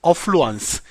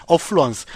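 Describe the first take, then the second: No difference in how they are said.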